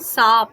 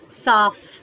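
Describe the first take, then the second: First: The word ends with an aspirated 'ph' sound. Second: The word ends with a fricative 'f' sound. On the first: The speaker calls it wrong. "बहुत से लोग बोलते हैं साफ" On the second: The speaker calls it right. "लेकिन साफ नहीं होगा, साफ"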